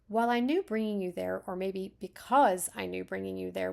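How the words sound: The word because is stressed. "If we had emphasis on because, I would read it like this"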